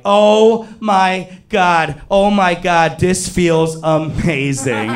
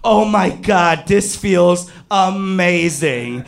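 First: Slow, drawn-out acted ecstasy, pitched up; overwhelmed pleasure. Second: High, stretched-out acted bliss; explosion of pleasure. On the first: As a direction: stretch out each word in comic bliss. Acted overwhelmed pleasure in retold scene. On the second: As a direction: draw out the words in comic ecstasy. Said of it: "in my head there was an explosion".

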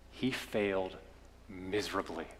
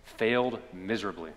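First: Softer, letting failed miserably sink low and quiet; hushed, falling away. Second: Firmer, leaning on failed, miserably at normal volume; emphatic repeat. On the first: Preacher tells the congregation of Peter's failure, hushed. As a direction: say it like a sad confession. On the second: Preacher repeats the point to the congregation, firm. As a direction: state it plainly and squarely. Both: Acted.

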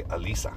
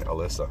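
First: "Alyssa" said uh-LEE-suh, long ee held at the end; "Alyssa" with a long ee: uh-LEE-suuh; correct name pronunciation. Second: "Alyssa" said uh-LISS-uh, short i in the middle; wrong name pronunciation. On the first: Telling listeners how he and Lizzie say it now, "Alyssa" as uh-LEE-suh. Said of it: "now we say". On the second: Admitting his own mistake, "Alyssa" as uh-LISS-uh. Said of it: "I'm the one saying it wrong". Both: Shown as a demonstration.

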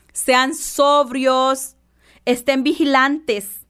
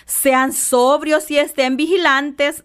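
First: Very slow and deliberate, each word set apart; sermon line spelled out slowly. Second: Said in the usual way. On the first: Shown as a demonstration. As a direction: drag it out so every word lands.

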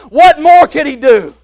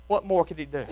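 First: Loud, high call of the question; preaching question. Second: Much lower and much softer echo of the question; hushed repeat. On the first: Preacher asking the congregation, loud and ringing. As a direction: fling the question out to the church. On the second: Preacher echoing his own question to the church, hushed and low. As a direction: let the question fall to a near hush. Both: Acted.

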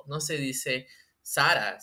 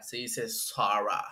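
First: Said in the usual way. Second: Slow, snooty English "Sarah"; mock English accent. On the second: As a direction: correct "Sarah" with mock sophistication. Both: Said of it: "cómo se pronuncian bien las marcas".

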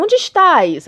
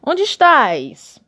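First: High, loud call of God; booming God voice. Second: Very slow, high and loud; slow drawn-out God voice. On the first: Reading God's words to Adam, high and loud. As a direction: boom out the question like God. God's question read aloud. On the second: Mocking God again for Adam, drawn out slowly. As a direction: stretch each word like a sly God. God's question repeated mockingly. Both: Acted.

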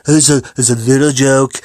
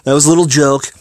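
First: Put-on voice of a boastful public speaker; Donald impression. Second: Said in the usual way. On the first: Shown as a demonstration. Podcaster playing up an accidental voice, Donald impression. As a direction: say it in a mock Donald voice. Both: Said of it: "sounds like Donald voice".

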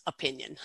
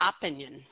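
First: "opinion" stressed as o-PIN-ion; weak first O, firm PIN in "opinion"; stress on second syllable. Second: "opinion" stressed on the first syllable, OP-inion; misplaced first-syllable stress. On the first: Shown as a demonstration. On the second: Retold or imitated. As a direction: hit the O of "opinion", weaken the middle. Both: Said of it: "put the most stress on that second syllable".

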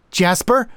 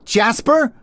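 First: High-pitched anxious question; worried. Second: High-pitched questioning call; distant shout. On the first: Harriet kneeling to check the narrator, high worried voice. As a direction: say the name with worry, close by. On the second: Harriet calling down from atop the lighthouse, high distant shout. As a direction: call out a name from far away. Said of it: "she was shouting from atop the lighthouse". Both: A narrator's reading.

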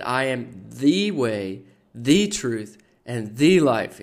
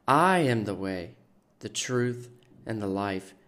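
First: THE stressed, slow and building louder. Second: Said in the usual way. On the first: Retold or imitated. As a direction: lean on each "the" in "the way, the truth, and the life". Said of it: "He always put the emphasis on the".

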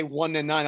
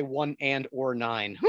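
First: Said in the usual way. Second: "one and or nine" with the "and or" spelled out; jokey pronunciation. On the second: Shown as a demonstration. Joking to the co-host about the highway, "one and or nine" said out in full. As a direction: say "one and or nine" for the road name. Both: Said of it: "I like to say one and or nine".

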